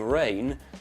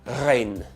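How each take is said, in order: First: The R is a smooth English R. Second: The R is trilled at the back of the throat. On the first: The speaker calls it right. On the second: The speaker calls it wrong.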